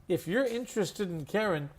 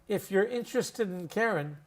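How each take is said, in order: No difference in how they are said.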